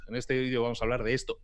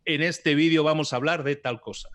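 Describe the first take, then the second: First: Said in the usual way. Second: Upbeat, higher and louder opener; energetic YouTube intro. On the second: Shown as a demonstration. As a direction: sell the video with energy. (presentador entusiasta de YouTube) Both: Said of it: "si tú estás haciendo un vídeo en YouTube".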